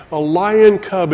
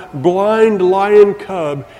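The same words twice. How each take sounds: First: Said in the usual way. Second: "blind lion cub" drawn out slowly, each word weighted; slow emphatic "blind lion cub"; slow stress on blind lion cub. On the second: Shown as a demonstration. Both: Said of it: "an immature, blind lion cub".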